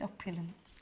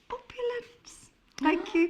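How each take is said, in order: First: Soft, low posh telephone voice. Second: High, slow, grand drawn-out posh word. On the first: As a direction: say it with a plummy telephone voice. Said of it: "Your telephone voice". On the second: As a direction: savour it like a duchess. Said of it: "in a posh voice". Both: Shown as a demonstration.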